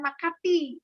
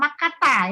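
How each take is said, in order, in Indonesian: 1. Kata itu berakhir dengan vokal 'i'. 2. Kata itu berakhir dengan vokal 'a'. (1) "bukan Makati ya" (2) "Ila Makata ya"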